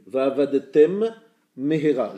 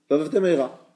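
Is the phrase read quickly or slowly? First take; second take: slowly; quickly. First: It is read slowly, each sound distinct. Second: It is read quickly, two sounds merged. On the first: The speaker calls it right. "Il y a deux mêmes qui se suivent" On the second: The speaker calls it wrong. "Je lis vite"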